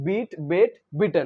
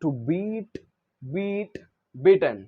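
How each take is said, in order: First: "beat, beat, beaten" said slowly, each word clear with a crisp final t; careful teacher demo of "beat, beat, beaten"; correct pronunciation. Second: Said in the usual way. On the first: Shown as a demonstration. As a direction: model how "beaten" is pronounced, "bee-ten". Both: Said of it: "actually ऐसे pronounce करना है हमको".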